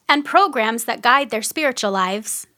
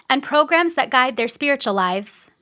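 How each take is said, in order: No difference in how they are said.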